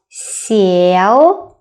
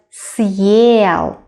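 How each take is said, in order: First: Сел with a softened, palatalized S gliding into the vowel; soft S in сел. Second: Съел with a hard S, then a separate 'yel'. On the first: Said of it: "harder, like not сел, but съел". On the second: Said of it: "make our previous consonant sound harder". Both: Shown as a demonstration.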